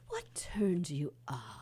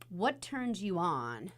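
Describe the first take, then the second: First: It is said imitating another man's manner. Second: It is said in the speaker's own voice.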